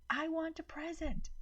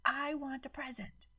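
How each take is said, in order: First: High, piercing tantrum cry; shrieking child. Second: High tantrum cry, stress on I; shrieking child. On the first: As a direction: shriek demandingly like a spoiled child. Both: A narrator's reading. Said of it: "Maddie started shrieking".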